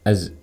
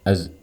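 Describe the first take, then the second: Both takes have the same delivery.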